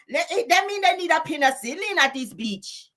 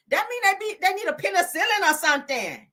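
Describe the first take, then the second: First: High-pitched mock Mexican accent. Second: Said in the usual way. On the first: Telling them they need penicillin, mock Mexican accent. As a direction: put on an exaggerated Mexican accent. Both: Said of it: "Let me say it in my damn Mexican voice".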